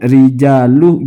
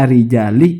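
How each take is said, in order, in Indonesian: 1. Kata ini berakhir dengan vokal 'u'. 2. Kata ini berakhir dengan vokal 'i'. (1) "sepertinya salah lagi lamnya itu" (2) "Mestinya rijali"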